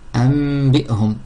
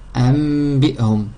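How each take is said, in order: First: The nasal before b is an m. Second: The same.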